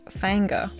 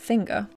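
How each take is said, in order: First: It is said with a Tennessee twang. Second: It is said in a plain accent.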